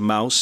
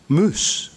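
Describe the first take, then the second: First: The vowel is the diphthong 'ow'. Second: The vowel is a long 'oo'.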